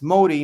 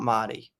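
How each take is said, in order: First: The first vowel sounds like 'oh'. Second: The first vowel sounds like 'ah'. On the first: The speaker calls it right. "I'm finally saying it right. It's Modi" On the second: The speaker calls it wrong. "not Madi"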